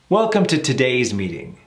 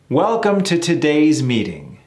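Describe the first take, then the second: First: It is spoken at a natural conversational speed. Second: It is spoken slowly and carefully. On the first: "a little more in real time" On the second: "I'll do it slow first"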